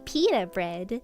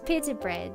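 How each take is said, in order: First: It is pronounced the American way. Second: It is pronounced the non-American way. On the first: The speaker calls it wrong. "an American, and they say pita bread, and I hate it" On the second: The speaker calls it right. "That's how you say it"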